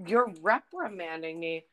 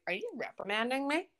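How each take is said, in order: First: "You're reprimanding me." falling at the end as a plain fact; flat statement. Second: "Are you reprimanding me?" rising at the end like a disbelieving question; incredulous question. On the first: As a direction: state "reprimanding" as a dry realisation. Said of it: "in my gut, I was like". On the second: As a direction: ask "reprimanding" as if you can't believe it. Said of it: "I didn't say this out loud". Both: Retold or imitated.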